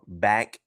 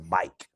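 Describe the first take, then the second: First: The vowel is a short 'a' sound. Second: The vowel is an 'ike' sound. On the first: This is the usual pronunciation. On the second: This is how people in Florida say it.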